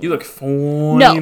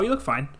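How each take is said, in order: First: It sounds admiring and appreciative. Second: It sounds flat and dismissive.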